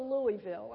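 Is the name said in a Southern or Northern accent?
Northern. It is said in a Northern accent.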